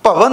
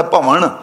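First: ਭਵਨ ending in a plain dental n; ਭਵਨ with the tongue on the teeth for the final n. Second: ਭਵਨ ending in retroflex ਣ; ਭਵਨ said as ਭਵਣ, with ਣ for ਨ. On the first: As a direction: say ਭਵਨ with ordinary ਨ at the end, not retroflex ਣ. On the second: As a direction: curl the tongue back for the last sound of ਭਵਨ, as in bhavaṇ. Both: Shown as a demonstration. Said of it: "ਨਾਣੇ ਨਾਲ ਪੜ੍ਹਨਾ ਭਵਨ".

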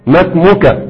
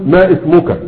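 First: "ما اسمك" joined as masmuka; linked hamzat wasl. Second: "ما اسمك" broken into ma ismuka; wrongly sounded hamza. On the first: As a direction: leave out the hamza of "اسمك" after ma. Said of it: "لكن لما تدخل خلاص". (إسقاط همزة "اسمك" عند الوصل بـ"ما") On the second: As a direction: keep a glottal i on "اسمك" after ma. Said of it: "لا تقل". (قطع الهمزة في "ما اسمك") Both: Shown as a demonstration.

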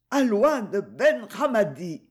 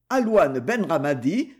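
First: «Alouane Ben Ramadi» arraché lentement, plus aigu, voix altérée; le dernier souffle qui libère le nom; mot de mourante. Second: Said in the usual way. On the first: A narrator's reading. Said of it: "pour libérer le mot qui s'échappa". (la mourante livre le nom au capitaine, lentement, dans un dernier effort) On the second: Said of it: "répéta après elle l'enquêteur".

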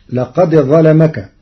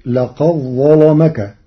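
First: لقد ظلمك with a clear dāl before ظلمك; لقد ظلمك said laqad ẓalamak, dāl sounded; Hafs reading. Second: لقد ظلمك said laqaẓẓalamak, dāl merged into ẓā'; لقد ظلمك with the dāl assimilated and a heavy lām; Warsh assimilation. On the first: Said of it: "قرأ ورش كلمتي لقد ظلمك". (لقد ظلمك بإظهار الدال) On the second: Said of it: "بإدغام الدال في الظاء". (لقد ظلمك بإدغام الدال في الظاء) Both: Shown as a demonstration.

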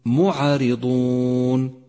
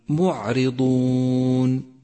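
First: معرضون chanted slowly, with a bounce on the ع; wrong bounced ع. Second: معرضون slow, with a smooth unbounced ع; correct recitation. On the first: Teacher demonstrating the common error, chanted. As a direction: show the mistake: echo on ع in معرضون. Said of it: "فإياك أن تقول معرضون". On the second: Teacher giving students the correct version. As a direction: recite معرضون cleanly, no echo. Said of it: "وصوابه أن تقول". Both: Shown as a demonstration.

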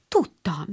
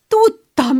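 First: Said in the usual way. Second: Higher and louder joyful cry; excited. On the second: A narrator's reading. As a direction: burst out with delight. Beth repeats in rising joy.

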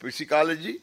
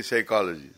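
First: "psychology" with the P sounded, pi-si-ko-lo-ji; pronounced as written. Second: Said in the usual way. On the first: Shown as a demonstration. Showing students how English is written, "psychology" with its P sounded. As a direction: say "psychology" as spelt, P voiced before the S. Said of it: "you write psychology". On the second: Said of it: "and then say psychology".

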